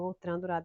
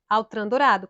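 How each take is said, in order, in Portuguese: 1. O primeiro nome é dito em estilo francês. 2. O primeiro nome é dito em estilo português. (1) "eu falo Outran, minha gente, porque é o costume da pronúncia francesa" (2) "Mas é Altran Dourado"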